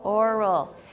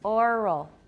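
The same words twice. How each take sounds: No difference in how they are said.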